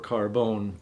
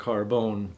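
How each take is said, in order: First: It is said with an Italian pronunciation. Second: The same.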